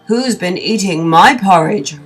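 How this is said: It is roared loudly in Father Bear's voice.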